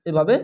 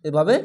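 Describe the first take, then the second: No difference in how they are said.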